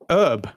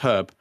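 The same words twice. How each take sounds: First: The word starts with a silent H. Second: The word starts with a pronounced H. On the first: The speaker calls it wrong. "that's an American thing" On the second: The speaker calls it right. "It's Herb"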